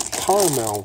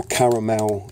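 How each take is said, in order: First: "caramel" said the American way, as CAR-mel; American pronunciation. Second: "caramel" said the English way, as CA-ra-mel; English pronunciation. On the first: Naming the next ingredient, "caramel" pronounced the American way. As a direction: say "caramel" in two syllables, American style. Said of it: "or caramel if you're in England". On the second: Correcting for viewers in England, "caramel" pronounced the British way. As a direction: give "caramel" three syllables, British style. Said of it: "if you're in England". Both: Shown as a demonstration.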